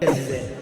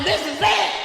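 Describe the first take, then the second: First: It is said in a resigned way. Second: It is said in a celebratory way.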